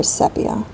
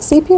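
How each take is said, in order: First: "sepia" with a short E, SEP-ee-uh; alternative pronunciation. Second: "sepia" with a long EE, SEE-pee-uh; pronunciation option. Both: Shown as a demonstration. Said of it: "Is it sepia or sepia?".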